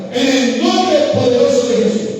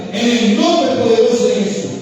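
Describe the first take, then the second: The two takes are said the same way.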